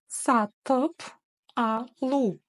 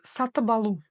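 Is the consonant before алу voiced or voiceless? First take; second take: voiceless; voiced. First: Said slowly with a voiceless p before алу. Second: Said linked with a voiced b before алу. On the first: "Сначала читаем медленно по слогам" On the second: "данная согласная должна звучать как звонкая"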